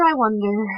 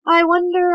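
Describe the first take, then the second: First: Said in the usual way. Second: High, loud musing first "I wonder". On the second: Acted. Luke muses, repeating himself.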